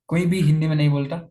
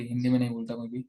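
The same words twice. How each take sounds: First: Louder, leaning hard on कोई भी; emphatic repeat. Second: Said in the usual way. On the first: Real, not acted. Telling a viewer classes are all English, insisting louder. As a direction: drive home that nobody speaks Hindi, कोई भी pushed up and out.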